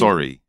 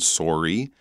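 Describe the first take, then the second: First: It has a British accent. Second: It has a Canadian accent.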